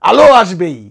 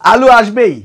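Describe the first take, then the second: First: The first word ends with an 'oh' vowel. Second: The first word ends with an 'oo' vowel. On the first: The speaker calls it right. "অহন ঠিক আছে" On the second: The speaker calls it wrong. "ময়মনসিংহের মানুষ এমনি কথা কয়"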